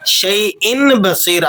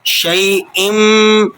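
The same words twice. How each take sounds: First: شَيْءٍ بَصِيرٌ with an n, no iqlab; the wrong way: شَيْءٍ ending in ن; wrong, plain n. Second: شَيْءٍ ending in an m sound; iqlab, n to m. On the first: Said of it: "آپ نے اسے نہیں پڑھنا". (غلط، شَيْءٍ بغیر اقلاب) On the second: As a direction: turn the tanween of شَيْءٍ into م. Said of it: "ہم اسے پڑھ رہے ہیں". (شَيْءٍ میں نون کی جگہ میم) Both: Shown as a demonstration.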